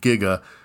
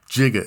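First: The word begins with a hard g sound. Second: The word begins with a j sound. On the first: The speaker calls it right. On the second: The speaker calls it wrong.

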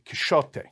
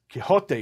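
First: The name has an older medieval Spanish pronunciation. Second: The name has its familiar modern pronunciation. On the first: The speaker calls it right. "in medieval Spanish pronunciation, you'd pronounce it Quixote" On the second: The speaker calls it wrong. "you wouldn't pronounce it Quixote"

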